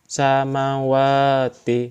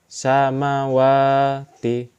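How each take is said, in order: Both takes have the same delivery.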